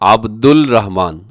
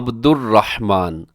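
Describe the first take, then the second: First: An L sound is heard before Rahman. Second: An R sound is heard before Rahman. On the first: The speaker calls it wrong. "बहुत से लोग उनको क्या पढ़ रहे होते हैं ... तो ये दुरुस्त नहीं है" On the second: The speaker calls it right. "अल रहमान नहीं पढ़ेंगे बल्कि अर रहमान पढ़ते हैं"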